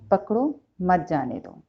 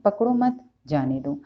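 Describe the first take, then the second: First: The pause comes right after the first word. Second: The pause comes right after the second word. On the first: Catch him, do not let him go. "पकड़ो के बाद अ, comma है" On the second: Do not catch him, let him go. "पकड़ो मत के बाद comma लगाने का मतलब ही बदल गया"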